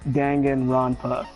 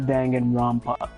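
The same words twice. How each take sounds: First: The word is said without an m sound. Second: The word is said with an m sound. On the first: The speaker calls it right. "it's called Danganronpa, There's no M in it" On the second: The speaker calls it wrong. "not Danganronpa"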